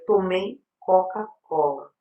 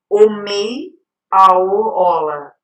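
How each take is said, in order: First: All the consonant sounds are pronounced. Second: The opening consonant sounds are left out. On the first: The speaker calls it right. "seria tomei Coca-Cola" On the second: The speaker calls it wrong. "omissão, né? Que não pronuncia alguns sons"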